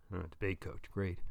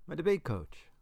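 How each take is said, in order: First: Low, soft, unimpressed dad; lower, muttered scorn from a father; sarcastic father. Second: Put-on higher-pitched boy's reply; lightly voiced youngster, pitched up; young son. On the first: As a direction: echo it with dry sarcasm. Father scoffs at son's answer. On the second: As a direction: voice the son answering his dad. Boy answers his gruff father. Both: A narrator's reading.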